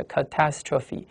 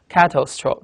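First: "catastrophe" stressed on TAS, ca-TAS-tro-phe; stress on second syllable. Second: "catastrophe" broken into two parts, cato plus stro; split into roots. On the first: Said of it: "它的重音在第二音节". ("catastrophe"重音落在第二音节tas上) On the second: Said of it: "这个cato加个astro这个词合在一起了". (把"catastrophe"拆成cato和stro两部分来读) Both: Shown as a demonstration.

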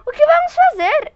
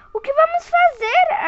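First: High, loud frightened question; a panicked ask, pitched up; frightened wife asking her husband what to do; nearly voiceless fear. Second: High, tearful frightened question; little girl asking her parents, near tears; almost crying. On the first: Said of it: "quase sem voz". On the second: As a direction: ask it on the edge of tears. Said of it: "quase chorando". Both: Acted.

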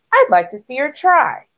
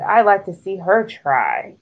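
First: Higher, mildly groaned complaint; groaning. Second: Understated groaning complaint; mild groan. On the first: Goose doubts Thistle could do it, groaning. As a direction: grumble it with a swooping groan. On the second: Goose on Thistle's boast, mildly groaning. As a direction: groan it lightly, close to the usual pitch. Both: A narrator's reading. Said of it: "groaned Goose".

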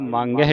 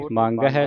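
First: ਮੰਗ ਹੈ with a nasalised "hai"; wrong nasal ending. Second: ਮੰਗ ਹੈ ending on a clean oral "hai"; no nasal ending. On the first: Teacher warning students of a misreading, ਮੰਗ ਹੈ ending nasal. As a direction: add a nasal to the end of ਮੰਗ ਹੈ. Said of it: "ਇਹਨੂੰ ਮੰਗ ਹੈ ਨਹੀਂ ਪੜ੍ਹਨਾ". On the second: Teacher reciting for students, ਮੰਗ ਹੈ without final nasal. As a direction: keep the end of ਮੰਗ ਹੈ free of nasal. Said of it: "ਬਿੰਦੀ ਤੋਂ ਰਹਿਤ". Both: Shown as a demonstration.

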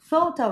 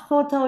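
First: Photo with a gliding "oh" vowel; correct English pronunciation. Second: Photo with plain Vietnamese "ô" vowels; mispronounced O. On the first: Teacher modelling the word for pupils, correct pronunciation. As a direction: say photo with rounded English O glides. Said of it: "we say O". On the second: Teacher showing pupils what to avoid, mispronounced O. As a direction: say photo with pure, unglided O sounds. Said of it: "không có cái âm nào gọi là âm như kiểu chữ O". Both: Shown as a demonstration.

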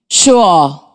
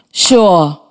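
First: "Sure" said slowly as a model, one clear syllable; model word. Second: "Sure" said again, plain and clear, one syllable; model word repeated. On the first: Teacher to class, modelling the word, "Sure" said carefully. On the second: Teacher to class, repeating the model, "Sure" said clearly. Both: Shown as a demonstration. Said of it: "Listen first".

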